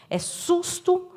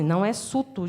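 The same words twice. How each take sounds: First: "susto" said high and slow, leaning on the S; slow emphatic correction. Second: "suto" said without the S sound; dropping the S. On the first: Teacher showing kids how not to correct, slow and emphatic. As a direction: stretch out "susto" and hit the S hard. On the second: Teacher showing the wrong way to say it, dropping the S. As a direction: say "suto", leaving out the S. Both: Shown as a demonstration. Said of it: "eu podia falar assim".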